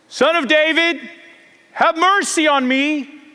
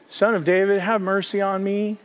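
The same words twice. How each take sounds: First: It is cried out loudly. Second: It is said quietly and plainly.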